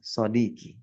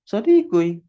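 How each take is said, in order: First: No extra vowel is heard before the ending. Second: An extra u vowel is heard before the ending. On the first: This is the form actually used. "tapi ternyata malah sodiki" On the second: This is the theoretically expected form with the damma ending. "seharusnya kan dibaca apa? Sodikui"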